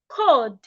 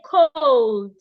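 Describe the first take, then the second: First: No L sound is heard before the D. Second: An L sound is heard before the D. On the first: The speaker calls it right. "The L in that word is silent. Say cold" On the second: The speaker calls it wrong. "So do not say cold"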